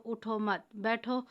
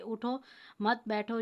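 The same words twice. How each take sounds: First: "اٹھو مت بیٹھو" run together slowly with no break after "اٹھو"; slow, unbroken "اٹھو مت بیٹھو" so the meaning flips; no pause after uthao. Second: "اٹھو" then a clear pause, then "مت بیٹھو"; pause after uthao. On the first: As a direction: join "اٹھو مت" in one breath. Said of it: "ٹھہرا نہ جائے تو". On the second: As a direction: stop on "اٹھو" before going on to "مت بیٹھو". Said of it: "تو اٹھو پر ٹھہرنا لازم ہے". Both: Shown as a demonstration.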